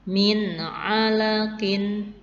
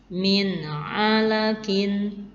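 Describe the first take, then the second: No difference in how they are said.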